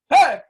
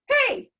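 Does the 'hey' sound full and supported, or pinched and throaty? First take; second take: full; throaty. First: A full sound supported by air from below. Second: A pinched sound produced up in the throat. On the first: The speaker calls it right. "That hey did not come from my throat. It came because the air came from underneath" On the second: The speaker calls it wrong. "I just did the sound from up, up top. Bad, bad"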